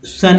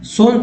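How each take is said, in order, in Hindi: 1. इस शब्द का उच्चारण छोटे 'uh' स्वर के साथ होता है। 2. इस शब्द का उच्चारण 'oh' स्वर के साथ होता है। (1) "क्योंकि सन ही है ना" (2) "सोन तो नहीं पढ़ते हैं"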